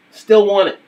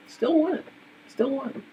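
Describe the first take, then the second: First: Said in the usual way. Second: Softer and softer, like an echo; fading echo. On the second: Acted. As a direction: let the words echo away into silence. Repeating the phrase, fading away.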